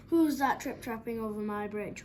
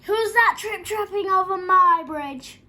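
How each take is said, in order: First: Mildly roared troll challenge; a restrained, slightly louder troll demand; troll with a touch of roar. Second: Huge, high, slow roar; full-force storybook troll roar. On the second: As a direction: bellow a drawn-out challenge as a fierce troll. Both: A narrator's reading. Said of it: "roared the troll".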